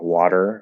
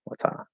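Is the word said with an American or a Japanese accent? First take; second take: American; Japanese. First: It is said with an American accent and final R. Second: It is said with a Japanese accent, no final R. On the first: "we're in American English, like we would say like water" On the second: "They might say like wata"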